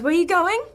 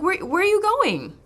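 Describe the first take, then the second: First: The pitch rises at the end of the question. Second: The pitch falls at the end of the question.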